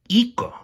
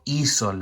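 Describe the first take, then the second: First: The middle consonant is a k sound. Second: The middle consonant is an s sound. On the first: The speaker calls it wrong. "how would I pronounce that? Iko, right?" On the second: The speaker calls it right. "I want the s sound. So I'm going to put a Z in there"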